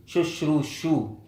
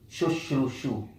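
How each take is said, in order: First: Shushru shu drawn out slowly, each syllable separate; slow repeated syllables. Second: Said in the usual way. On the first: Shown as a demonstration. Teacher spells the word out slowly for students, slow and careful. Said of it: "You repeat the sha". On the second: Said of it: "and then you add behind shu".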